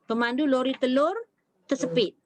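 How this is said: There is a pause after the word telur. The egg-truck driver got trapped. The speaker calls it right. "kalau dia berhenti pada kalimah telur"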